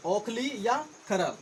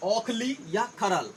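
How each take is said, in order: Both takes have the same delivery.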